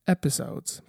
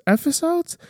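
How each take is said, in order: First: Breathy whispered episodes; playful whisper. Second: Very high rising episodes; playful high-pitched question; mock surprised question. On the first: Pretend. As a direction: drop to a whisper. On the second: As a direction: squeak up on the last syllable. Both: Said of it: "What is going on?".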